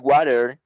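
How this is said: It is said in an American accent. "Americans say water"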